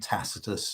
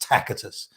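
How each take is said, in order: First: The middle consonant is a soft s sound. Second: The middle consonant is a hard k sound. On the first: This is the modern pronunciation. "the modern pronunciation" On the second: This is the ancient Latin pronunciation. "the C was pronounced as a hard C or, or a K"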